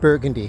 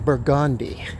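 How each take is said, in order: First: It uses the standard, non-local pronunciation. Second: It uses the local New Orleans pronunciation. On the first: The speaker is not a local. The speaker calls it wrong. "You don't pronounce it Burgundy Street" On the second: The speaker is a local. The speaker calls it right. "you know that you pronounce that name Burgundy"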